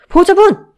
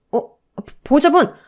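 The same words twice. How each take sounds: First: Much higher, much louder cry for the guardian; urgent shout. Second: Raised call for the guardian. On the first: Nurse shouting for the fainting mother, urgent. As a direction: yell it in alarm. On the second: Nurse calling the mother in the hospital, loud. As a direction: call across the ward. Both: A narrator's reading.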